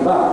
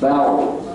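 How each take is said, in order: First: The syllable is thin, with a plain A. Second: The syllable is thick, its vowel rounded toward O. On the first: The speaker calls it wrong. "bukan bar" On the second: The speaker calls it right. "bunyinya bau"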